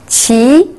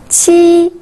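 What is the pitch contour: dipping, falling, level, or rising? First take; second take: rising; level. First: The pitch rises from mid to high. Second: The pitch stays high and level.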